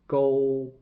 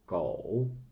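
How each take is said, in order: First: The syllable has a high level tone. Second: The syllable has a low dipping tone. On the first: "second character should be pronounced to be 勾" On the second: "狗 狗is the third tone"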